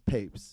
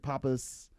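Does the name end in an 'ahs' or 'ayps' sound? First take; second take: ayps; ahs. First: The name ends with an 'ayps' sound. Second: The name ends with an 'ahs' sound. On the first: The speaker calls it right. "but it goes as papes" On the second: The speaker calls it wrong. "they'll like kind of like mess with the with the pronunciation"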